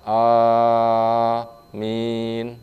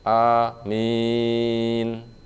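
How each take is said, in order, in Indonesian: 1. Kedua vokal dipanjangkan sangat panjang. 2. Vokal pertama pendek, yang kedua dipanjangkan. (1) "A dibaca enam, min dibaca enam" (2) "A dibaca mat tabi'i, min mat arid lusukun"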